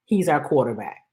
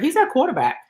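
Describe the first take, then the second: First: Said in the usual way. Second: Mocking quote. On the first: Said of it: "And the answer was". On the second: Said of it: "We heard".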